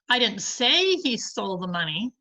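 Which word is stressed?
say. The stress falls on the word say. The speaker thinks it but never said it. "but I think he did"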